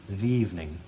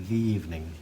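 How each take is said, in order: No difference in how they are said.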